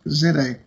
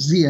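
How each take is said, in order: First: Z is said the British way, as 'zed'. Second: Z is said the American way, as 'zee'.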